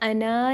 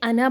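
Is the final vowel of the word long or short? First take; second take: long; short. First: The final vowel is long. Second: The final vowel is short. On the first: The speaker calls it wrong. "अना नहीं पढ़ना" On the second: The speaker calls it right. "अना पढ़ना"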